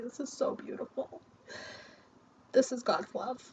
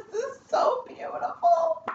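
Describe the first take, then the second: First: Whispered through tears, much softer; barely breathing the words out, moved; tearful whisper. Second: Much higher, slow, voice breaking into sobs; moved to tears by the cards; real crying. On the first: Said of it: "Oh my God, I'm crying". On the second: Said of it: "I'm gonna cry". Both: Real, not acted.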